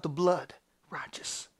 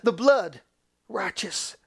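First: Low, soft, fading to a whisper; quiet, reverent assurance; hushed. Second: Forceful first word dropping to hush; emphatic pulpit declaration; crying out. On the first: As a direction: let the last word become breath. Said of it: "In the spirit that cries out". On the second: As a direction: proclaim it, then soften the last word. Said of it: "God cries out". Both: Acted.

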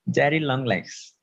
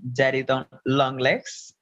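First: "Daddy Longlegs" said slowly, each syllable placed with care; slow, deliberate "Daddy Longlegs"; careful pronunciation. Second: Trips on "Daddy Don-" before getting out "Longlegs"; a real stumble over "Daddy Don-, Longlegs"; stumbled name. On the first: Shown as a demonstration. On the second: Real, not acted. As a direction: fumble the start of "Daddy Don-", then finish "Longlegs". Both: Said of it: "Aún me cuesta trabajo pronunciarlo".

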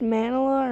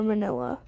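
First: "manila" stressed on the first syllable, MAN-uh-luh; MAN-uh-luh pronunciation. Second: "manila" stressed on the middle syllable, muh-NIL-uh; weak first vowel in "manila", stress on NIL; muh-NIL-uh pronunciation. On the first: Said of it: "I'm actually not sure if it's pronounced". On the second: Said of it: "pronounced manila or manila". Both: Shown as a demonstration.

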